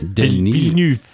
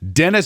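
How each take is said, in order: First: The name is said without an American pronunciation. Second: The name is said with an American pronunciation.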